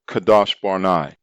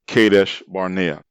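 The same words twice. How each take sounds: First: The name is said in an uncommon, original-sounding way. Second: The name is said in the common English way. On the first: The speaker calls it right. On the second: The speaker calls it wrong.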